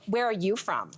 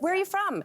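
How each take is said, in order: First: The question is asked in a doubting, suspicious tone. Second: The question is asked in a warm, curious tone. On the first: The listener does not belong here. "some people might deliver the question being like" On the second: The asker wants to connect and learn something. "Maybe it's because of the tone"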